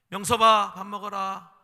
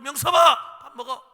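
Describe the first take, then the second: First: The call is said gently and softly. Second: The call is said in a loud voice. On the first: The child is being called for the first time. "처음엔 좋게 부르세요" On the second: The child has ignored earlier calls. "한 번 더 큰 목소리로"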